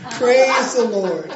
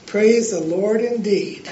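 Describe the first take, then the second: First: Loud, slow, triumphant praise; jubilant. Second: Chuckling as the words come out; laughing. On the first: A narrator's reading. Lady celebrating the devil paying for groceries, jubilant loud praise. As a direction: shout it in joyful triumph. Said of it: "jumping up and down and clapping". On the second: Real, not acted. Preacher amused by his own joke, laughing praise. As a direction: laugh through the line, amused.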